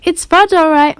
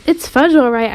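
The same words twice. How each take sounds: First: Higher, lilting echo; mother echoing. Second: Said in the usual way. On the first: A narrator's reading. Mother echoing her son's words, higher voice. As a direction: repeat it back higher, as the mother. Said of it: "my mother repeated".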